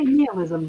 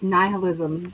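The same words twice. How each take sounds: First: The first vowel is a short 'ih' sound. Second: The first vowel is a long 'eye' sound. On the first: The speaker calls it wrong. "I could have swore I heard people say" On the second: The speaker calls it right. "The first I is long, not short"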